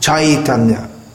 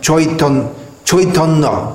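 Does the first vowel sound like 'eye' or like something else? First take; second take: eye; something else. First: The first vowel sounds like the word 'eye'. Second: The first vowel does not sound like 'eye'. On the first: "when we see AI in Sanskrit, that should be pronounced something like I" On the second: "In Bengali it's pronounced Chaitanya"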